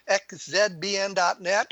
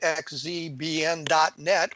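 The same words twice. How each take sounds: First: The letter Z is said as zed. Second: The letter Z is said as zee.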